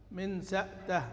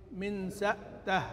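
No difference in how they are said.

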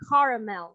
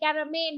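First: The word has an English pronunciation. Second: The word has a Vietnamese-style pronunciation. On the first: The speaker calls it right. "So that is the first way" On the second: The speaker calls it wrong. "In Vietnamese, we say caramel"

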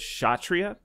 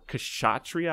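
First: The word starts with a sh sound. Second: The word starts with a clear K sound. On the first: The speaker calls it right. "it's just Kshatriya" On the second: The speaker calls it wrong. "stop saying the K"

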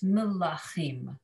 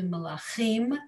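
First: The stress falls on the middle syllable. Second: The stress falls on the last syllable. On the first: The speaker calls it right. "that puts the emphasis on the lamed and the ah" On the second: The speaker calls it wrong. "as opposed to melachim"

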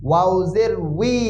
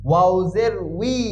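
No difference in how they are said.

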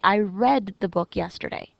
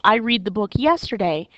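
First: The word read is said with a short e vowel. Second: The word read is said with a long ee vowel. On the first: The action happened in the past. The speaker calls it right. "yesterday tells me that this happened in the past" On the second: The action is in the present. The speaker calls it wrong. "I quickly realize wrong word"

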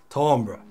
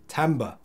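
First: The word is said with a French accent. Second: The word is said with an English accent.

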